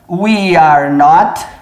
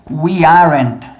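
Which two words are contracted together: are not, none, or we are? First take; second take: none; are not. First: All three words are said in full. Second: Are and not merge into one syllable.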